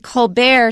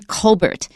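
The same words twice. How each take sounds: First: The name is said the French way. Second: The name is said the plain English way. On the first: This sounds fancier and more prestigious. "to sound all French and fancy" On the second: This is the original family pronunciation. "originally called"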